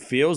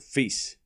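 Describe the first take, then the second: First: The name is said with an L sound. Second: The name is said without an L sound. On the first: The speaker calls it wrong. "I call him Fields. I'm from Chicago" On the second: The speaker calls it right. "they don't say the L. It's silent ... That's the the correct pronunciation"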